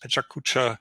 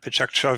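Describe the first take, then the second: First: It is said with four full syllables. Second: It is said with three syllables, one vowel dropped. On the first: This is the common everyday pronunciation. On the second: This is the official pronunciation.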